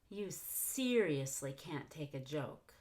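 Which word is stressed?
seriously. The stress falls on the word seriously. "I decided to stress that instead of the word joke"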